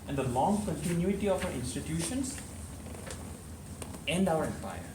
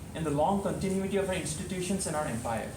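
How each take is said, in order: First: It is said with a pause after each phrase. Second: It is said in one run without pauses. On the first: The speaker calls it right. "you have to give a pause after every phrase" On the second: The speaker calls it wrong. "I didn't say"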